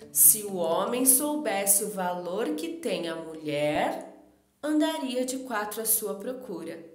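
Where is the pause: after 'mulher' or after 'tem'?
after mulher. There is a pause after the word 'mulher'. The man does not know the woman's worth. "colocou a vírgula depois de mulher"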